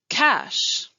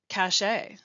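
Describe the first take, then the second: First: The word is said as one syllable. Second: The word is said with two syllables. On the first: The speaker calls it right. "I will say the right way" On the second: The speaker calls it wrong. "and then the wrong way"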